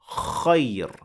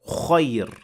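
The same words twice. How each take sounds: First: The first sound is open with unrounded lips. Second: The first sound has an added rounded O. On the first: The speaker calls it right. "The mouth is open, but the lips are not rounded" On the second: The speaker calls it wrong. "That is adding an O to the beginning of the letter, and that is not correct either"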